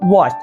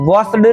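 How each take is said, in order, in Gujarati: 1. શબ્દનો અંત t અવાજથી થાય છે. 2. શબ્દનો અંત d અવાજથી થાય છે. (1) "પણ વોસ્ટ" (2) "વોસ્ડ નહીં"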